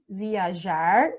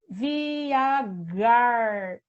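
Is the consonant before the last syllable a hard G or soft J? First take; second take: soft J; hard G. First: The middle consonant is a soft zh sound. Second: The middle consonant is a hard g sound. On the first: The speaker calls it right. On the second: The speaker calls it wrong.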